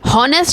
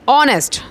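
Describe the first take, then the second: First: The word begins with an audible h sound. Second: The word begins directly with a vowel sound. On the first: The speaker calls it wrong. "हॉनेस्ट नहीं" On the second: The speaker calls it right. "ओ की sound produce हो रही है"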